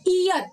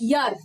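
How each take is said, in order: First: It begins with a plain ee vowel sound. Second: It begins with a clear y consonant sound. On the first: The speaker calls it wrong. "It's not ईयर" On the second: The speaker calls it right. "It's यर"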